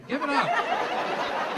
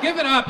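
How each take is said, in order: First: Stretched very slow and high, coaxing; drawn out. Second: Said in the usual way. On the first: Shown as a demonstration. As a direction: drag it out slowly to calm them. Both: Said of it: "Why y'all so angry?".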